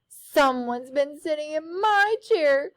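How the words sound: It is said in a high crying voice.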